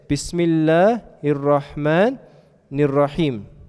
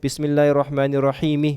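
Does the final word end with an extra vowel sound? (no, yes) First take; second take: no; yes. First: The last word ends on a consonant, no vowel. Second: The last word ends with an added i vowel. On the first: The speaker calls it right. "when you recite Quran and you stop somewhere, you don't say the end of it" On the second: The speaker calls it wrong. "Do you say that?"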